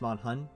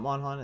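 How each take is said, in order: First: The second syllable has an 'uh' vowel, 'hun'. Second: The second syllable has an 'o' vowel, 'hon'. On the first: The speaker calls it right. "it's Monhun" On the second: The speaker calls it wrong. "It's not, it's not Monhon"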